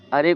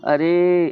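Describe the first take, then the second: First: Said in the usual way. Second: अरे with a long-held final ए; खींचा हुआ अरे. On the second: Shown as a demonstration. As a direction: call अरे higher, dragging out the last vowel. (अरे को दूर तक खींचकर बोलें) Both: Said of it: "खूब दूर तक खींच के".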